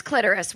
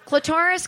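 First: Clitoris with the stress on the first syllable, CLIT-er-is. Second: Clitoris with the stress on the second syllable, cli-TOR-is; alternative pronunciation. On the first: Comedian trying out both pronunciations, clitoris stressed on CLIT. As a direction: say clitoris as CLIT-er-is, at normal pitch. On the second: Comedian trying out both pronunciations, clitoris stressed on TOR. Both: Shown as a demonstration. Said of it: "where are we at with that?".

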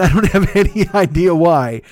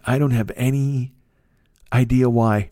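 First: Louder repeat through a laugh. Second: Said in the usual way. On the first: Real, not acted. Telling listeners he's going anyway, repeated with a laugh. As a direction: laugh it off in disbelief. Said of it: "repeat with laugh". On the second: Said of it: "I mean, I don't have any idea why".

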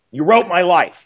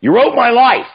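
First: Said in the usual way. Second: Loud, high burst of praise; effusive exclamation. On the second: Retold or imitated. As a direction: blurt it out, overwhelmed. Producer effusively praising the script.

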